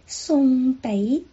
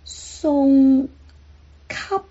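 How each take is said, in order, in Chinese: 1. 第二个音节以开唇结尾。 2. 第二个音节以闭唇结尾。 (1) "口语是送北" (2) "这是书面语的发音"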